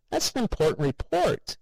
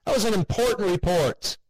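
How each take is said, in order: First: Sharp high exclamation, upset; cried out. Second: Higher, louder furious outburst; angry shout. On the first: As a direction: cry out in protest over the report. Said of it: "he cried". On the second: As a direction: yell it at the empty doorway. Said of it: "he shouted". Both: A narrator's reading.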